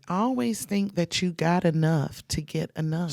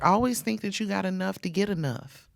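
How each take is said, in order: First: It is said slowly and deliberately. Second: It is said at normal conversational speed.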